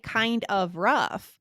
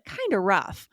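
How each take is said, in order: First: The word 'of' is said fully and separately. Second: The 'of' is reduced and merged into 'kind'. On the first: "You didn't say" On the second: "You said kinda rough"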